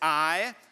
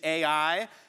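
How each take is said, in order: First: The name is said as one syllable. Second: The name is said as two syllables. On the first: "I pronounce it I" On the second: "You pronounced the city Ai"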